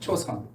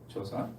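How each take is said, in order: First: It is said with an American English pronunciation. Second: It is said with a native Korean pronunciation.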